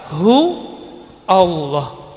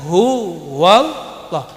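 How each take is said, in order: First: Hu and Allah are said without a w. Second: A w sound links hu to Allah. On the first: "Aslinya apa? ... Itu aslinya" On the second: "ketika disambung dengan lafaz setelahnya harus ditambahin waw"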